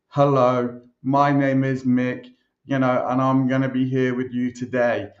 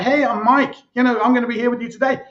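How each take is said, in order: First: It is said slowly and stiffly. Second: It is said fast and conversationally.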